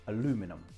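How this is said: It is said with an American pronunciation. "they go to the American one"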